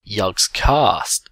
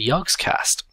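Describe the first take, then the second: First: It is said with a British-like pronunciation. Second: It is said with an American-like pronunciation. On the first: This is how the group's own members say it. "as they say, Yogscast. See, there you go, different" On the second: This is the speaker's own way of saying it. "I say lots of words the same way that Americans say them"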